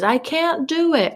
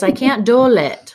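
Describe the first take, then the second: First: Put-on high, drawn-out toddler voice, words said normally; imitating toddler. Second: "do it" said as "do-lit", pitched up; toddler's odd pronunciation. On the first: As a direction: mimic a little kid, pitched up and slow. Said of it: "when she says". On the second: Retold or imitated. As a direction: mimic a toddler putting an L into "do it". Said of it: "she kind of pronounces it odd".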